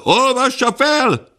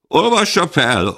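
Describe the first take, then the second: First: Much higher, slow, drawn-out cry; a second voice insisting louder; the crowd growing impatient, pitch soaring; shrill crowd demand. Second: High, loud call to read it out; demanding shout. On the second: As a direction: demand it from the back of the hall. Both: Acted. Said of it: "követelte több hang".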